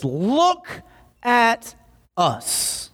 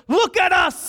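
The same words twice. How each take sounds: First: Slow, word-by-word, with pauses; measured, high-pitched command to pay attention; deliberate command. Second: High, forceful call in one burst; acted shout for someone's attention, pitched way up; urgent shouted command. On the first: Acted. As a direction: draw out each word, starting high. Acting out Peter's command. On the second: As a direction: shout it as one sudden demand. Peter's command, louder retake.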